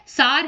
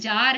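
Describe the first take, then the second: First: The word begins with an 's' sound. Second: The word begins with a 'j' sound. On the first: The speaker calls it right. "मतलब sorry" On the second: The speaker calls it wrong. "Hindi में जो लिखा हुआ है जार उसके हिसाब से इसको प्रोनाउंस कर रही हूं"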